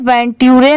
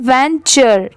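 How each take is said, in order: First: The middle consonant is a plain 't' sound. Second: The middle consonant is a 'ch' sound. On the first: The speaker calls it wrong. "इसे वेंट्यूरे नहीं पढ़ेंगे" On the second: The speaker calls it right. "टी की sound ट की नहीं आ रही है, च की यहाँ पर आ रही है"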